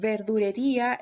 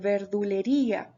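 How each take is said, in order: First: An r sound follows 'verdu'. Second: An l sound follows 'verdu'. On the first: The speaker calls it wrong. "la gente que dice eh, verdurería" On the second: The speaker calls it right. "en vez de verdulería"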